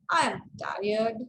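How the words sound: The voice sounds mocking and sarcastic. The speaker does not mean it literally. "So this is sarcastic way of using intonation"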